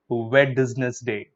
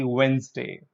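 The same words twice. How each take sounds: First: "Wednesday" slow, with the D and middle e sounded; wrong Wednesday. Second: "Wednesday" as "wenz-day", D silent; correct Wednesday. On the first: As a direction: spell out "Wednesday" wrongly, wed-nes-day. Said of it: "No, the D is silent here". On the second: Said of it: "the D is silent here". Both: Shown as a demonstration.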